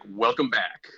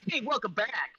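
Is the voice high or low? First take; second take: low; high. First: It is said in a low, deep voice. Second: It is said in a high voice.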